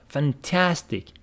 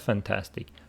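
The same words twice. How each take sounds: First: The word is said with strong, energetic emphasis. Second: The word is said flatly, without extra emphasis. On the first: The speaker calls it right. "you should put some stress on it" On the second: The speaker calls it wrong. "It's not"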